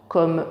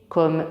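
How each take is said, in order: The two takes are said the same way.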